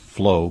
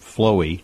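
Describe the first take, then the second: First: The name is said with one syllable. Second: The name is said with two syllables. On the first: The speaker calls it right. "I think the correct pronunciation is Flow" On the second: The speaker calls it wrong. "Some people pronounce it Flowy"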